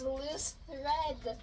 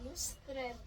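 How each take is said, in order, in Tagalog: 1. Sinasabi ito bilang dalawang salita, loose thread. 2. Pinagdugtong ito bilang isang salita, lustred. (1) "Turns out it was loose thread" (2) "my mom always says lustred"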